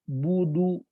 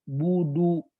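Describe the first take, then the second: The two takes are said the same way.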